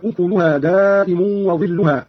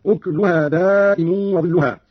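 First: Said in the usual way. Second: أكلها said "ukluha", no vowel after k; slow recitation, أكلها as "uk-lu-ha"; silent vowel on kaf. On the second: Shown as a demonstration. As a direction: close k onto l in أكلها. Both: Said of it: "قرأ قالون بإسكان الكاف".

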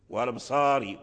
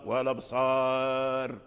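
First: Said in the usual way. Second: والأبصار stretched slowly, ending on a silent r with no kasra; slow pausal stop. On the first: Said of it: "إذا وقفنا بالسكون ذهب الكسر". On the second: Shown as a demonstration. Teacher showing students the pause on والأبصار, slow stop. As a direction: draw out والأبصار and stop on the still r. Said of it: "ذهب الكسر".

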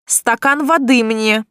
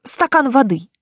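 First: Slow, demanding order; bossy demand for water; commanding. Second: Politely asking for water; meek, deferential request; too respectful. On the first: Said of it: "но меньше почтительности". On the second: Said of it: "опять получилось слишком уважительно". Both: Acted.

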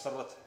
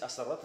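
First: "sarrat" starting straight on the s; correct word form. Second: "asarrat" with an extra opening vowel; wrong word form. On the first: Preacher correcting the Arabic, "sarrat" without leading a. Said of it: "Nicht asarrat, es sarrat". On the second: Preacher showing the wrong form, "asarrat" with leading a. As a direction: add an a before "asarrat"'s s. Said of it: "Nicht asarrat". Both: Shown as a demonstration.

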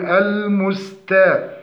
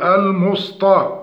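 First: "المستا" with thin hissed s, not sad; light seen. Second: "المسطى" with a heavy emphatic s; seen turned to sad. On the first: Teacher models the correction, thin seen in المستا. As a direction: keep the s of "المستا" light and flowing. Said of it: "مع مراعاة ترقيقها". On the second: Teacher demonstrates the error, heavy s in المسطى. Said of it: "وقلب السين لصاد". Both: Shown as a demonstration.

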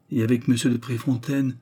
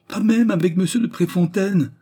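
First: Said in the usual way. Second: Very high, loud protest; indignant denial. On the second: A narrator's reading. Raymonde answering the accusation about Préfontaine, indignant cry. She hotly denies the accusation.

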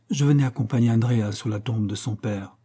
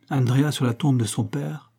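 First: Said in the usual way. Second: "Andrea sur la tombe de son père" as a lifted echo question; questioning repeat. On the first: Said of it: "puis il répondit". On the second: A narrator's reading. Stranger repeating "Andrea sur la tombe de son père", questioning. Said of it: "répéta l'étranger".

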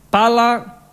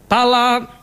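The two takes are said the same way.

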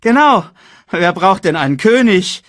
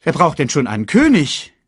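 First: Very high, loud parroting hyena; Banzai echoing. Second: High, loud scoffing hyena; Shenzi. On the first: Hyena echoing his companion, very high and loud. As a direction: squawk it back eagerly. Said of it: "echote Banzai". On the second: Hyena dismissing kings, high and scornful. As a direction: toss it out as a scoff. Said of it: "sagte Shenzi". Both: A narrator's reading.

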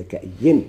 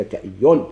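First: "كأي" said ka-ayyin, doubled y and final n; "كأي" with kasra nunation, ending raised; nunated ending. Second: "كأي" said ka-ayyun, doubled y and final n; "كأي" with nunation, ending raised; nunated ending. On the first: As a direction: pronounce "كأي" with a clear -in ending. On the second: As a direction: pronounce "كأي" with a clear -un ending. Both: Shown as a demonstration. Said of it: "بفتح الهمزة وشد الياء منونة".

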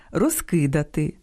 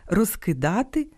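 First: Розкидати with stress on the и, roz-KY-da-ty; stress on second syllable. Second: Розкидати with stress on the а, roz-ky-DA-ty; stress on third syllable. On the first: Host shows perfective verb, second-syllable stress. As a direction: lean on KY in розкидати. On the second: Host shows imperfective verb, third-syllable stress. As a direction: rise onto DA in розкидати. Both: Shown as a demonstration. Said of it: "Часом омографами стають і недалекі родичі".

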